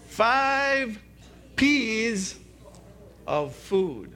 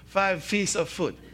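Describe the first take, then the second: First: The letter name starts with a P sound. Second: The letter name starts with an F sound. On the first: The speaker calls it right. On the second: The speaker calls it wrong. "I heard somebody already mess"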